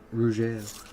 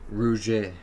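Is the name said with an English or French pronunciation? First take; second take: French; French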